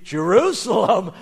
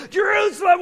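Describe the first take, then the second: First: Loud burst of surprise; amazed exclamation. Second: Very high, loud, thrilled cry; overjoyed shout. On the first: Young donkey's heart skips at the news, amazed. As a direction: blurt it out in astonishment. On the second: Young donkey realises his wish is granted, overjoyed. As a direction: shout it like an elated child. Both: Acted.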